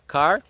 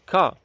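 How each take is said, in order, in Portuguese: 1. O r final é claramente pronunciado. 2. O r final é suprimido. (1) "como nós vemos nos filmes americanos" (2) "o inglês fala car. Eles cortam esse R no final"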